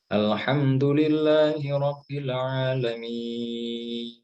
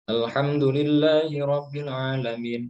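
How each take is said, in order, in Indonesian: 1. Vokal akhir pada alamin dibaca panjang. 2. Vokal akhir pada alamin dibaca pendek. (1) "ini agak panjang" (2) "itu salah, itu nggak panjang"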